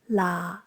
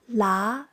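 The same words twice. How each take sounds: First: The pitch stays low and level. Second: The pitch rises up to high. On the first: "Low-pitched stays at the same pitch"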